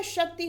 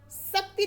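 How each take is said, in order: First: Said in the usual way. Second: शक्ति as sakti, with s; wrong pronunciation. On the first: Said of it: "शक्ति होता है". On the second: Shown as a demonstration. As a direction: start शक्ति on s instead of sh. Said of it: "शक्ति नहीं होता".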